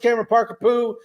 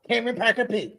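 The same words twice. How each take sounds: First: It is said in his normal voice. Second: It is said in a Cartman impression.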